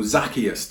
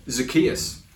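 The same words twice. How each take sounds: First: "Zacchaeus" stressed on the first syllable, ZAK-ee-us; alternative pronunciation. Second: "Zacchaeus" stressed on the middle, za-KEE-us; first pronunciation. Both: Shown as a demonstration. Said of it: "however you want to pronounce it".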